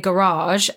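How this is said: The word is said in an American accent. "in America, they say garage"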